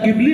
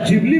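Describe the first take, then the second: First: The word begins with a plain g sound. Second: The word begins with a j sound. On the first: "या ट्रेंडचे तीन उच्चार" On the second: "या ट्रेंडचे तीन उच्चार"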